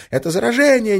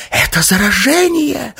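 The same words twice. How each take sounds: First: High screaming wail, not hoarse; girl faking infection screams to scatter the crowd. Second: A hoarse, high-pitched gasp of a cry; choked alarm cry from the girl faking infection. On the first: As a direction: scream it out in feigned terror. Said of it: "истошно вопя". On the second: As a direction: rasp it out high and loud like a stricken woman. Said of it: "захрипела она". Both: Acted.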